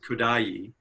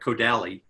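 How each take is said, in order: First: The name is not read as its spelling suggests. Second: The name is read as its English spelling suggests. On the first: The speaker calls it right. "but it's pronounced Kodaly" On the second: The speaker calls it wrong. "It looks like Kodali"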